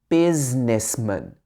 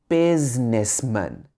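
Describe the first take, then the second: Both takes have the same delivery.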